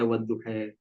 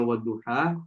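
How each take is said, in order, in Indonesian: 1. Vokal akhirnya condong ke bunyi 'e'. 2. Vokal akhirnya bunyi 'a' yang terbuka. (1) "dulu ada dialek yang membolehkan untuk membaca wadduha" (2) "Kita sekarang bacanya wadduha"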